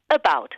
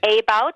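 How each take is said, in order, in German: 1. Der erste Vokal ist ein Schwa. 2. Der erste Vokal ist ein Vollvokal. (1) "sondern du sagst about, richtig? ... das erste Zeichen ist ein Schwa" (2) "Denn du sagst nicht about"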